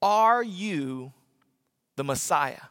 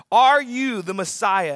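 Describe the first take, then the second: First: Said in the usual way. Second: Are you the Messiah, slower and louder; slow louder question. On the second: Retold or imitated. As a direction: press the question. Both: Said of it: "They ask this question".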